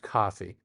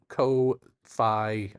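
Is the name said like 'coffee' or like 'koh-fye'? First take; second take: coffee; koh-fye. First: The name is said like the drink 'coffee'. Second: The name is said like 'koh-fye', drug-like. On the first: "or maybe it's pronounced coffee" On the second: "I'm pronouncing it Ko-Fi because uh, it just sounds more like something you'd take, a drug"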